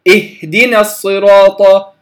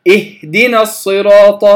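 Both takes have the same delivery.

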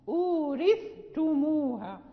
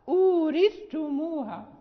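Both takes have the same delivery.

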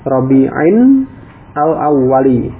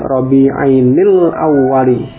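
First: The two words are said apart, without linking. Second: The words are joined with a linking 'nil' sound.

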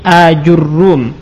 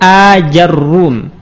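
First: Long first a, then ju, then a doubled r. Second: Long first a, then ja, then a doubled r. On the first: "dengan hamzah mamdudah, kemudian jim di dhammah, ra di dhammah dan di tasydid" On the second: "dengan hamzah mamdudah, kemudian jimnya kita fathah, ra-nya kita dhammah dan ditasydid"

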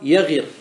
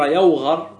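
First: The vowel before the last consonant is i. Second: The vowel before the last consonant is a. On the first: It is an irregular exception. "وأن تكسر" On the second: It follows the regular pattern. "بالفتح"

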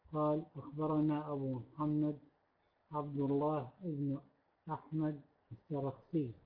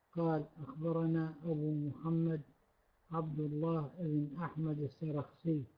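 The two takes are said the same way.

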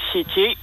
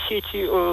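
First: The stress is on the first syllable. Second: The stress is on the last syllable. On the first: It refers to electronic networks. The speaker calls it right. "электронные сети — это сетей" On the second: It is not the form used for electronic networks. The speaker calls it wrong. "а не сети"

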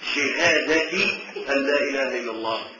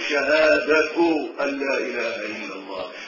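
First: The first word ends with the vowel i. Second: The first word ends with the vowel u. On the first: The phrase continues the preceding word as its substitute. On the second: The phrase is the predicate of an omitted subject.

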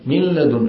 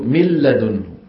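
First: The n merges into l keeping some nasal hum. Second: The n merges fully into l without nasal hum. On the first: This is how some tribes say it. "يعني في شيء فيها شيء من أي" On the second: This is how most tribes say it. "أغلب القبائل شو بتعمل؟ بيقولوا"

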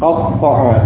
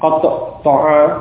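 First: The doubled consonant is merged without any break. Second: The doubled consonant is split by a short break. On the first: The speaker calls it right. "cukup satu kali ini sudah menunjukkan kedua-duanya ada di situ" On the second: The speaker calls it wrong. "masing-masing diucapkan qatta ta'a, tidak perlu seperti itu"

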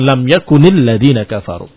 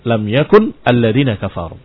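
First: The word yakun links with an i vowel. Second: The word yakun ends on a bare consonant. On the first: "satu yakuni" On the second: "dibacanya satu yakun"

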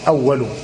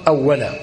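First: The word ends without an -a vowel. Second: The word ends with an -a vowel. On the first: It names the pen as the first thing created. The speaker calls it wrong. "هكذا يرويها بعضهم أول" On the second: It means 'when', at the time of creation. The speaker calls it right. "وإنما يختار أن تقرأ أولا"

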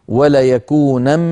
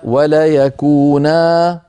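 First: The last word ends with an n sound. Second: The last word ends with a long a. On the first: The phrase continues without a stop. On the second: The reader stops on this word.

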